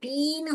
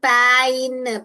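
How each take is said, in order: First: The vowel is a long 'ee' sound. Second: The vowel is an 'ai' sound. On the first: "ई भी नहीं बोलने का इसको" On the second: "पै बोलोगे तो पैइन, ऐसे गलत उच्चारण मत कीजिए"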